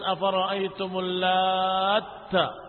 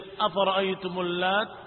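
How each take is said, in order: First: The final t is doubled and held. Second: The final t is short and single. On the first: It names one who mixes cakes. "dibaca dengan tasdid pada ta" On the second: It names a female deity. "dibaca dengan takhfif"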